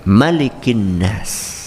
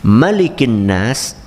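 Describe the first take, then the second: First: The first vowel of Malik is short. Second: The same.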